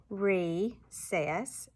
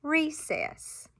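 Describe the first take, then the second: First: "recess" in two separate beats, re, then cess; evenly spaced syllables in "recess"; chopped syllables. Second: "recess" joined in one go, high then falling; blended "recess", pitched up with a final drop; syllables slid together. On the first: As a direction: chop "recess" slowly at the syllable break. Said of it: "chop those syllables". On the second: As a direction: slide "recess" into one whole word with a high start. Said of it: "and then we slide it". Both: Shown as a demonstration.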